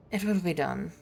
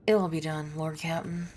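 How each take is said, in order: First: Imitating a clipped English accent; mock English officer accent. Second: Said in the usual way. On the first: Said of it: "he suddenly turned English". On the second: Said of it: "I don't know why he suddenly turned English".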